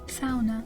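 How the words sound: It is said in a Yooper accent. "but they would say sauna"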